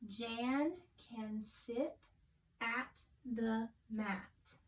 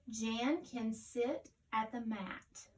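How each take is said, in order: First: It is read slowly, word by word. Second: It is read smoothly and fluently.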